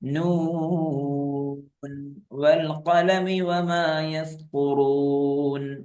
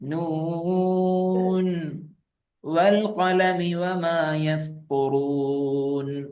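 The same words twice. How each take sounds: First: The first word runs straight into the next. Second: There is a stop after the first word. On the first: "വഖഫ് ചെയ്യാതെ ഓതുന്നു നോക്കൂ" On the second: "വഖഫ് ചെയ്യുമ്പോഴോ"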